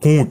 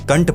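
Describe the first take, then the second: First: It has a long oo vowel and no n. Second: It has a short uh vowel with an n. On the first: The speaker calls it right. "मेरा खुद का surname ही देख लो" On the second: The speaker calls it wrong. "Internet पर most of the लोग कंट पढ़ते हैं"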